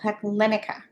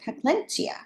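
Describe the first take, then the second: First: The name ends with the sounds '-lenica'. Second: The name ends with the sounds '-lencia'. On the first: The speaker calls it right. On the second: The speaker calls it wrong.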